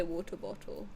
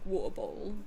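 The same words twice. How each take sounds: First: Said in the usual way. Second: "water bottle" in a London accent, t's softened away; casual London pronunciation of "water bottle". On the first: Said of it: "But now I say". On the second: Shown as a demonstration. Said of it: "when I used to live in London".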